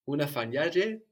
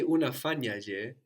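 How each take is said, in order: First: "unafanya je" as one word, stressed on "nya"; accent moved to NYA. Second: "unafanya" stressed on "fa", then "je" apart; je as separate word. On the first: Teacher models the joined question word, stress shifted to "nya" in "unafanya je". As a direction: run "je" onto "unafanya" and punch the "nya" before it. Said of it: "the accent will move". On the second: Teacher shows learner the mistake, "je" split off from "unafanya". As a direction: keep "je" detached from "unafanya", stress staying on "fa". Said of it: "sounds like a separate word". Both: Shown as a demonstration.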